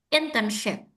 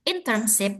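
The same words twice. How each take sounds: First: The last syllable starts with a thick sh sound. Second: The last syllable starts with a thin s sound. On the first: The speaker calls it right. "tapi S yang tebal, like shin" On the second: The speaker calls it wrong. "bukan S yang tipis"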